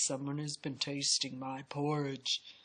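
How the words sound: It is said in a great big voice.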